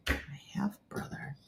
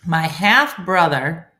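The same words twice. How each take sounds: First: Slow, whispered repeat; whispering to oneself. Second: Loud, deliberate reading with rising end; slow puzzling-out. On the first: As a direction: mull it over under your breath. Repeating confusing words to herself. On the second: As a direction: spell out the relation slowly. Slowly working through a confusing comment. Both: Real, not acted.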